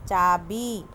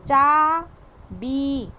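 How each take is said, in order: First: Said in the usual way. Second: चाबी very slow and loud, ee held out; teacher drawing out चाबी for children; stretched long ee. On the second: Shown as a demonstration. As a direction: drag out the final ee of चाबी. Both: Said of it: "थोड़ा तेज़ खींचना पड़ता है".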